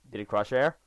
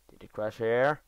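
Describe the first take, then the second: No difference in how they are said.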